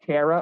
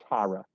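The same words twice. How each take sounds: First: "Tara" rhyming with Sarah; Tara as TAIR-uh. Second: "Tara" starting like "tar". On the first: Interviewer checks the guest's name, "Tara" pronounced TAIR-uh. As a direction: say "Tara" with an "air" vowel. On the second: Interviewer offers the other option, "Tara" pronounced TAR-uh. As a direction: say "Tara" with an open "ah" vowel. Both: Shown as a demonstration. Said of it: "Is your name pronounced".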